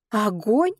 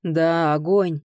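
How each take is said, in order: First: Higher, sharply rising question; startled question. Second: Lightly voiced big man's reply; firm confirmation with falling pitch; booming bass answer. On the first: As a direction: question «Огонь» in disbelief, voice going up. Startled question, answered by Roden. (удивлённый вопрос) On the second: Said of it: "пробасил сзади Роден". (слегка басовито, утвердительно) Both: A narrator's reading.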